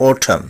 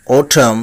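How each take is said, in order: First: অটাম as "OH-tham", falling; correct pronunciation with o. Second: অটাম with a short open "o", rising; common mispronunciation. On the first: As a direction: start অটাম with a rounded "o". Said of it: "ও দিয়ে শুরু হবে উচ্চারণটি". (ও দিয়ে "ওটাম") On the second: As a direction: say অটাম as "aw-tam". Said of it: "শব্দটিকে বলে থাকি". (প্রচলিত উচ্চারণ "অটাম") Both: Shown as a demonstration.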